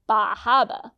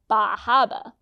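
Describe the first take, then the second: First: The R sounds are dropped, with long A. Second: The same.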